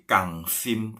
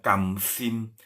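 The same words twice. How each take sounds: First: "kangsim" drawn out, NG closing the first syllable. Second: "kamsim" slowly, with M closing the first syllable; wrong M in "kamsim". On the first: Teacher correcting students, "kangsim" with NG instead of M. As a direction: hold a back-of-mouth NG in "kangsim". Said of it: "tapi pakai N G ya". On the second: Teacher showing students the mistake, "kamsim" with M. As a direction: close the lips after "kam" in "kamsim". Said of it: "Bukan M ya". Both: Shown as a demonstration.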